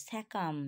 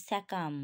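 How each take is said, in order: The two takes are said the same way.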